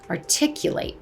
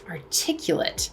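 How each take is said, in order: First: The final syllable sounds like 'eight'. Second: The final syllable sounds like 'it'. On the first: It is used as a verb. "the act of speaking something aloud is to articulate" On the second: It is used as an adjective. "I could describe you as articulate"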